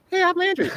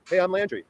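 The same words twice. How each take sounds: First: Mock the voice, pitched much higher; a hammed-up high squeaky self-intro. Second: Said in the usual way. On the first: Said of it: "here's how you sound now". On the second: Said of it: "But go, but go".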